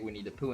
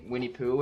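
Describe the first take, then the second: First: The middle word 'the' is clearly pronounced. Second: The middle word 'the' is dropped or swallowed. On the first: The speaker calls it right. "it's actually Winnie the Pooh. So I'm gonna say Winnie the Pooh instead" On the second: The speaker calls it wrong. "I pronounce it like Winnie Pooh, and I've been told many times I'm wrong"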